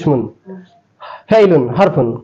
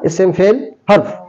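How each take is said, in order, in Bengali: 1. প্রতিটি শব্দে শেষের -un উচ্চারণ করা হয়। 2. শেষের স্বরচিহ্ন বাদ যায়, শব্দ ব্যঞ্জনে শেষ হয়। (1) "বানান কিন্তু লেখা ইসমুন" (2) "এইভাবে বললেই হলো"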